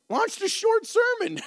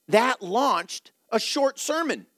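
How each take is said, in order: First: Squeaky high echo of her own line, laughing at it; high-pitched amused echo; high amused repeat. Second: Said in the usual way. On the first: Shown as a demonstration. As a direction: repeat it way up high, tickled by the irony.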